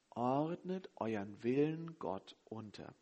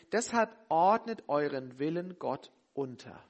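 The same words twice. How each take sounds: First: Softer and slow, letting each word sink in; soft slow repeat. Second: Said in the usual way. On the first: Shown as a demonstration. Preacher repeating the key verse to the congregation, soft and slow. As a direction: repeat it gently and deliberately, as the key point. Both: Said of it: "das ist das Entscheidende".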